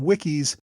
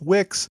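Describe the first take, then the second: First: The name is said with two syllables. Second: The name is said with one syllable. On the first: The speaker calls it wrong. "slipped up ... called him Wickies" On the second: The speaker calls it right. "his name was pronounced Wicks"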